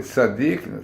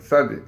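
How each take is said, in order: First: The word ends with a k sound. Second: The word ends without a k sound. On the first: The speaker calls it wrong. "but you don't say Tzadik" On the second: The speaker calls it right. "without the kof"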